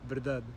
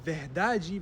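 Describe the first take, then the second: First: The unstressed vowels are left out almost entirely. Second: The unstressed vowels are pronounced fully and clearly. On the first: This is a more extreme Portuguese version. "or just verdade" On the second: This is how it is said in Brazil. "this might be verdade"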